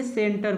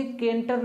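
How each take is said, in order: First: सेंटर said with a clear s, as senter; demonstrating the right s in सेंटर; correct reading center. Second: केंटर said with a hard k, as kenter; demonstrating the wrong k in केंटर; wrong reading kenter. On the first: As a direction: read सेंटर with the s sound. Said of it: "इसको क्या पढ़ेंगे?". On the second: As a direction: read केंटर wrongly with a k sound. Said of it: "अब इसको हम केंटर नहीं पढ़ेंगे". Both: Shown as a demonstration.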